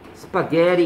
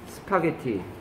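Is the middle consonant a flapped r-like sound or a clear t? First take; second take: flapped r; clear t. First: The middle consonant is a flapped r-like sound. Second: The middle consonant is a clear t sound.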